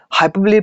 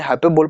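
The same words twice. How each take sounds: First: हाइपरबोली ending in a "lee" syllable; real pronunciation. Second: हाइपरबोल ending in "bol", no final vowel; alternative pronunciation. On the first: Teacher giving students the real reading, हाइपरबोली ending in "lee". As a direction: say हाइपरबोली as hai-per-blee. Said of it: "इसका जो real pronunciation होता है". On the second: Teacher allowing another reading, हाइपरबोल ending in "bol". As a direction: say हाइपरबोल as hai-per-bol. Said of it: "चाहे हाइपरबोल पढ़ो". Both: Shown as a demonstration.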